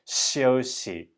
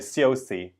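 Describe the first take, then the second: First: The first consonant sounds between sh and s. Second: The first consonant sounds like English sh. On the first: The speaker calls it right. "It's more like in between" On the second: The speaker calls it wrong. "it's not sh"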